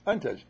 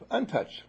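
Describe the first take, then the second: First: Said in the usual way. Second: Untouched said high and stressed; emphatic untouched. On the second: Real, not acted. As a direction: lift the word untouched high.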